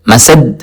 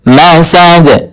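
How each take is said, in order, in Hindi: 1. अंतिम d सपाट रुकता है, बिना झटके के। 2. अंतिम d को झटकेदार उछाल के साथ छोड़ा जाता है। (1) "मसद नहीं पढ़ना" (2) "बल्कि मसद"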